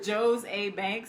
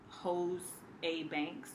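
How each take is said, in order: First: The name begins with a J sound. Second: The name begins with an H sound. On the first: "I think that's how you say it" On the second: "I hate to say hose"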